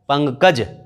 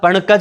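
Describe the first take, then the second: First: An ng sound comes before the k. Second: A retroflex n sound comes before the k. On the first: The speaker calls it right. "प अंग कज" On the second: The speaker calls it wrong. "क्या पणकज होता है, नहीं।"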